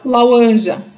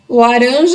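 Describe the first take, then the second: First: The second consonant is a w-like glide. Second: The second consonant is a tapped r. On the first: The speaker calls it wrong. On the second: The speaker calls it right.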